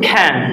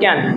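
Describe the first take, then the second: First: The first consonant is said with a puff of air. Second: The first consonant is said without a puff of air. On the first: The speaker calls it right. "এই দেখেন হবে কি ক্যান" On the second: The speaker calls it wrong. "আমরা আগে বলতাম ক্যান"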